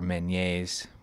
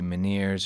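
First: It is pronounced with a French sound. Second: It is pronounced without a French sound.

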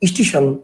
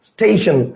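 First: An extra vowel is added before the s. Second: The word starts directly with the s consonant. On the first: "আমরা কি বলি" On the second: "actual উচ্চারণটা কি"

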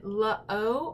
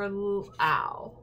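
First: The vowel is an 'oh' sound. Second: The vowel is an 'ow' sound. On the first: "O-W makes O or ow" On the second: "O-W makes O or ow"

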